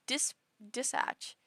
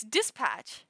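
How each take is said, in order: First: "dispatch" slow and halting, softer, P nearly dropped; softened P attempt. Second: "dispatch" drawn out slowly with a firm P; usual strong P. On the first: Streamer testing less emphasis on the P, hesitant weakened P. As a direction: feel out "dispatch" haltingly with a very weak P. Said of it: "Put less emphasis on the P". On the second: Streamer showing their only way to say it, separated strong P. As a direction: say "dispatch" in two slow beats, strong P in patch. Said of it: "don't know how to say it otherwise". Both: Shown as a demonstration.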